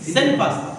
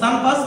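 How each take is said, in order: First: The first vowel is an 'e' sound. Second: The first vowel is an open 'a' sound. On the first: "সেন জেরেনি সেকশন এ উচ্চারণ তাহলে সেন" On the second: "নয়তো কি সান"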